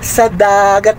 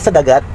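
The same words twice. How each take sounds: First: The words are kept separate and distinct. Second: The words are run together without a break. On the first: The speaker calls it right. "Dapat sa dagat" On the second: The speaker calls it wrong. "mali po ang sa dagat"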